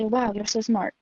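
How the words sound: It sounds skeptical and mocking, the tone goes down.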